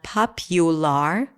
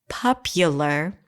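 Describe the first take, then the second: First: The unstressed vowels are full, not reduced. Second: The unstressed vowels are reduced to schwa. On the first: The speaker calls it wrong. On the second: The speaker calls it right.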